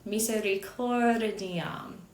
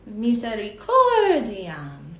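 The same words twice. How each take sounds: First: The syllable weights are only gently marked. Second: The syllable weights are strongly exaggerated. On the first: "in a more normal voice"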